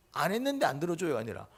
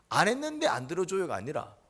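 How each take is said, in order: Both takes have the same delivery.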